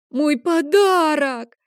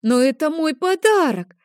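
First: Much higher, loud, slow sobbing cry; boy starting to cry for his lost present, high, loud, drawn out; crying wail. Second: Put-on much higher and louder childish wail; little boy near tears over his confiscated present, high and loud; tearful protest. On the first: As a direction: burst into tears over it. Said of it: "Лео начал плакать". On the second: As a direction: plead on the edge of tears. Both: A narrator's reading.

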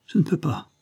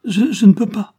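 First: High, helpless protest; helpless plea. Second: Very high, loud stammered protest; desperate stammer. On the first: Child failing the balancing trick, helpless plea. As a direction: give up timidly. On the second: Child gives up after vain attempts, desperate stammer. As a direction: stumble on the first word in distress. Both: A narrator's reading.

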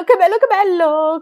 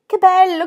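First: High, loud chanted repeat; sung, singsong delight. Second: Put-on sung, high, loud girlish singsong; sung, singsong delight. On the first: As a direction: keep chanting it, thrilled and loud. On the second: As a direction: chant it with joy, much louder and higher. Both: A narrator's reading. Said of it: "canterellò Gilbert".

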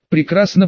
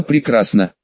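First: Прекрасно with a rising tune; rising praise. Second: Прекрасно with a falling tune; falling praise. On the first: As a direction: lift the end of Прекрасно upward. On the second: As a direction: let прекрасно drop low and settle. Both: A narrator's reading. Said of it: "демонстративно похлопал".

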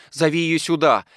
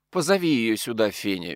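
First: Quick eager order, higher and louder; roused, call for her at once; startled, eager. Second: Majestic. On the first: Daughter sends for her maid, startled and eager. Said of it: "встрепенулась Екатерина Егоровна". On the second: Colonel's widow instructing the maid, majestic. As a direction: grant permission with regal calm. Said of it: "величественно сказала Колкунова". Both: A narrator's reading.

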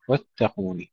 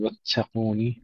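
First: واتقون with a held t and no puff of air; clean doubled ta. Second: واتقون with a hissy, aspirated double t; breathed ta. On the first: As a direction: press the double t in واتقون without hiss. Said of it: "تشديد التاء جيدًا بدون همس". (واتقون بتاء مشددة دون همس) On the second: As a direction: let air hiss out of the t in واتقون. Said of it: "تشديد التاء جيدًا بدون همس، لا نقول". (واتقون بهمس التاء المشددة) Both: Shown as a demonstration.

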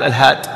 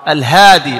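First: "الهاد" stopping on the consonant; final ya dropped. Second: "الهادي" loud, ending in long ee; final ya restored. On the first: Teacher showing the mistake, "الهاد" cut without final ee. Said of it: "ما تقول الهاد". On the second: Teacher showing the correct definite form, "الهادي" with long ee. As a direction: say "الهادي" as al-haadee. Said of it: "ترجع الياء". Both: Shown as a demonstration.

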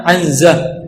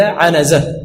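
First: عنزة said "'anza", no vowel after n; sukun on nun. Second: عنزة said "'anaza", a after the n; fatha on nun. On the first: Teacher quoting the Bedouin narrator's slip, "'anza" with vowelless nun. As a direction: say عنزة as 'AN-za. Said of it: "أنه سكن". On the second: Teacher correcting to the true word, "'anaza" with vowelled nun. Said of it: "ما فتح، سكن". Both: Shown as a demonstration.

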